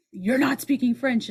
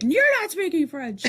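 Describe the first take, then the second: First: Mildly raised pitch, retold correction; retold scolding. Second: High, slow mimicking voice; mocking parroting. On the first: Woman correcting a French student, retold scolding. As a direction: tell them off, lightly imitated. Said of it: "this woman was like". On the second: Student mimicking the woman who corrected them, mocking parroting. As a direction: parrot it back, drawn out and mocking.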